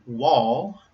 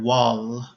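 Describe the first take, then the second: First: "wall" ending in a dark L. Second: "wall" ending in a light L. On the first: Teacher models a real English word, dark L in "wall". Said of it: "with a light L sound". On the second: Teacher shows a nonexistent word, light L ending "wall". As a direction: swap the dark L at the end of "wall" for a light one. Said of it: "at the end of the word with a light L sound". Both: Shown as a demonstration.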